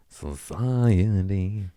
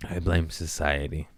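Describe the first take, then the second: First: Very slow whisper of "Society"; drawn-out whisper. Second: Said in the usual way. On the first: Acted. Blaming society in a long mock whisper. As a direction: breathe "Society" out slowly, half mocking.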